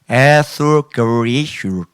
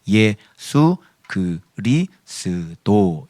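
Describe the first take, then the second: First: The name is slurred and pronounced inaccurately. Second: The name is pronounced clearly and accurately. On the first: The speaker calls it wrong. "발음이 약간 좀 이게 좀 부정확해" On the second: The speaker calls it right. "예수 그리스도 이렇게 하셔야 돼요"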